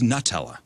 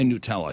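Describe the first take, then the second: First: The first syllable sounds like the word 'nut'. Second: The first syllable does not sound like 'nut'. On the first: The product is made from nuts. The speaker calls it right. "But it's Nutella. Dummies, it's made from nuts" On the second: This is how it is usually said in America. The speaker calls it wrong. "we say Nutella here in America"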